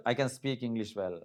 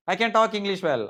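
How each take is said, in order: First: Slower, softer correction; quieter correct version. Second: Emphatic wrong example. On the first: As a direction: say the right version softly. (సరైన వాక్యం మెల్లగా) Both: Shown as a demonstration. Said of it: "ఆ చిన్న తేడా అంతే".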